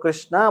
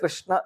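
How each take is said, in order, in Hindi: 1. यह शब्द दीर्घ आ स्वर से समाप्त होता है। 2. यह शब्द बिना स्वर के व्यंजन पर समाप्त होता है। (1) "कुछ लोग कृष्णा बोलते हैं, वो त्रुटि है" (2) "अ को भी आप निकाल देते हैं, कृष्ण सिर्फ बोलते हैं, वो भी त्रुटि है"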